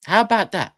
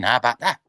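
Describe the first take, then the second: First: Higher, exasperated challenge; exasperated repeat. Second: Said in the usual way. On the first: Real, not acted. Ranting at the manager's choices, higher exasperated repeat. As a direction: throw it back at them, fed up. Ranting about Arsenal's squad depth.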